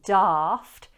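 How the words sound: The vowel is a long, open 'ah' sound. "The A in daft is pronounced with a long R vowel. You drop the jaw"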